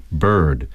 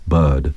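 First: Bird with a full American r; American-style bird. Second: Bird said like "bud", no r; English-style bird. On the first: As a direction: say bird with the r clearly rolled into it. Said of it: "like an American would". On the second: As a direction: drop the r in bird, almost "bud". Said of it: "an English would say something like bird". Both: Shown as a demonstration.

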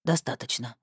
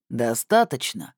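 First: Low, subdued concession; submissive, understated answer; resigned agreement. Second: Slow, pressing question; deliberate, low-voiced interrogator; menacing inquiry. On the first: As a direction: give in without arguing. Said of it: "не стал спорить пленник". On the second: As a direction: probe the prisoner, taking your time. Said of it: "поинтересовался человек". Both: A narrator's reading.

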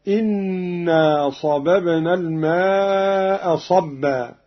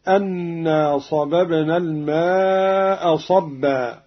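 First: Slow recitation opening إنا as "innaa"; kasra on hamza. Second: Slow recitation opening أنا as "annaa"; fatha on hamza. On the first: Teacher shows Qalun's reading, kasra on hamza. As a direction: start إنا with an i vowel, doubled n. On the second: Teacher quotes the verse before Qalun's variant, fatha on hamza. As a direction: start أنا with an a vowel, doubled n. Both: Shown as a demonstration. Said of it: "بكسر الهمزة".

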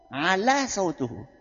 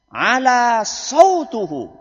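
First: Said in the usual way. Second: Lantang, nada naik, diulur panjang; suara tinggi. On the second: Shown as a demonstration. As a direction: serukan lambat seperti khatib berapi-api. (suara lantang dan tinggi) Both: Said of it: "Intonasi suaranya tinggi".

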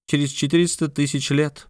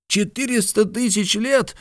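First: Said in the usual way. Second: Very high-pitched amazed exclamation; high, incredulous outburst; astonished cry. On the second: A narrator's reading. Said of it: "вскричал Ардан".

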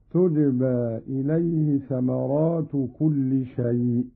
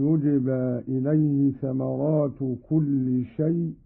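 First: تجبى said tujba, opening with a t; feminine ta. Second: Said in the usual way. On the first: Shown as a demonstration. Teacher demonstrates Qalun's reading, تجبى as tujba with ta. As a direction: start تجبى on "tu", not "yu". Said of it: "بالتاء على التأنيث".

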